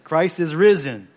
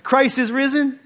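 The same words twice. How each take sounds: First: Slow, loud call: Christ is risen; call to the congregation. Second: Much higher and louder, rising call: Christ is risen?; rousing call. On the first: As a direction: call it out slowly to the church. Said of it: "When I say Christ is risen". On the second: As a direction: lift it high, inviting the answer. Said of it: "let's do that one more time". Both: Real, not acted.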